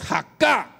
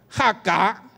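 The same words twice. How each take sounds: First: The stress is on the last syllable. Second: The stress is on the first syllable.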